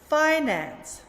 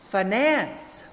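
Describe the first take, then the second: First: The stress is on the first syllable. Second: The stress is on the second syllable. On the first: It is used as a noun. "read the nouns with the stress on the first syllable" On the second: It is used as a verb. "the opposite"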